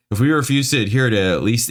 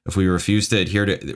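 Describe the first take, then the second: First: Fast, higher, exasperated read; exasperated rereading. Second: Said in the usual way. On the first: Real, not acted. Reader retries a baffling review line, exasperated. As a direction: rattle it off higher, fed up.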